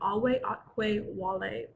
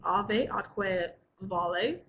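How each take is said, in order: First: The v letters are sounded as w. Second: The v letters are sounded as v. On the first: "classical Latin, ... the V's are pronounced like W's" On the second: "in medieval Latin, which is what you all are studying, it's"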